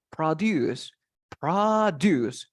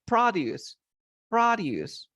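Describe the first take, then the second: First: "produce" stressed on the last syllable, pro-DUCE; stress at the end. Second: "produce" stressed on the first syllable, PRO-duce; noun stress. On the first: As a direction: hit the end of "produce" as a verb. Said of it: "The stress goes at the end of the word". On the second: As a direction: hit the start of "produce" as a noun. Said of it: "As a noun". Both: Shown as a demonstration.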